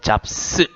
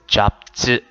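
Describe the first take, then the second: First: The word ends with a voiceless s sound. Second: The word ends with a voiced z sound. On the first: The speaker calls it wrong. "잡스 하시면 안 되고요" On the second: The speaker calls it right. "잡즈 이렇게 읽으셔야 돼요"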